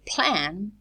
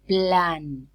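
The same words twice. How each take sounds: First: The p is aspirated and the l devoiced. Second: The p is unaspirated and the l voiced.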